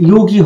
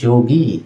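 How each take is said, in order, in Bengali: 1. শব্দটি y ধ্বনি দিয়ে শুরু হয়। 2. শব্দটি j ধ্বনি দিয়ে শুরু হয়। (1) "যোগী হওয়ার কথা" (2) "না হয়ে উচ্চারণ হয়ে থাকে যোগী"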